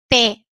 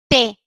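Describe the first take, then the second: The two takes are said the same way.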